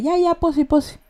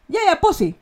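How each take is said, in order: First: Higher, mocking "Ya, ya, posi, posi" that means I don't believe you; sarcastic posi. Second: High, bright "Ya, ya, posi" as a plain yes; affirming posi. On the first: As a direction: drag out "posi" with disbelief. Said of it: "Eso implica que no le cree". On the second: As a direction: say "posi" as a cheerful agreement. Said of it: "Afirmación". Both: Shown as a demonstration.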